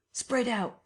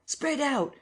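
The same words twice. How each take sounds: First: High shouted order; raised command; calling out. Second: Even higher repeated shout; rising urgent call. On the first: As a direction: call to the crowd to fan out. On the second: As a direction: push the order harder the second time. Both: A narrator's reading. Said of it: "cried some one".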